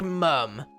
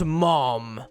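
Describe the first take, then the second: First: The vowel is short and central, as in 'cup'. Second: The vowel is open and back, as in 'cot'. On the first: "we pronounce it like mum" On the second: "And not mom"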